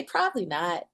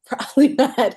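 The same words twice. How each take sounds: First: Softer, musing answer to her own question; quiet answer. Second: Louder, higher repeat with a laugh. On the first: Guest answering her own rhetorical question, quiet. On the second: Guest repeating her answer to the interviewer, laughing. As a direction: laugh it out as the punchline. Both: Shown as a demonstration.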